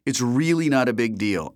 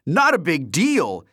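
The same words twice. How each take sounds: First: Said in the usual way. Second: High, loud, slow echo; incredulous cry. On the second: A narrator's reading. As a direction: cry out in disbelief. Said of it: "he cried".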